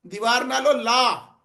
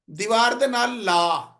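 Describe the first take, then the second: First: Slow "دیوار نالو لا", stretched نالو before لا; drawn-out "نالو لا" for "take it off"; Punjabi take-off intonation. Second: Slow "دیوار دے نال لا", falling on a drawn-out لا; drawn-out falling لا for "stick it on"; Punjabi stick-on intonation. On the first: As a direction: lengthen نالو, then set لا apart with a fall. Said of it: "اور جب ہم کہیں گے". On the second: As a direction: link نال to لا and stretch لا downward. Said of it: "ہمارا لہجہ بتا رہا ہے". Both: Shown as a demonstration.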